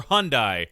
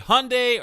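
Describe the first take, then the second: First: "Hyundai" ending like "die"; pronounced HUN-die. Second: "Hyundai" ending like "day"; pronounced HUN-day. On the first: Host asks guest which is right, "Hyundai" as HUN-die. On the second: Host asks guest which is right, "Hyundai" as HUN-day. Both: Shown as a demonstration. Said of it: "How do they pronounce it".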